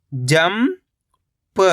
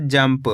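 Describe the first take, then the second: First: जंप as long rising "jam", pause, "pa"; split syllables. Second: Said in the usual way. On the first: Shown as a demonstration. Teacher breaking down जंप for learners, split syllables. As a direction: stretch जंप into two separate syllables. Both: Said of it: "तो मिलके बन जाएगा".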